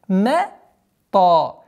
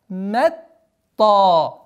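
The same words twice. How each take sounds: No difference in how they are said.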